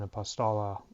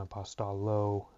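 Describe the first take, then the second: First: The o vowel is short, as in not. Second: The o vowel is long, as in obey. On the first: "I'm using the um, short uh, pronunciation of the Omicron" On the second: "I'm not saying apostolo"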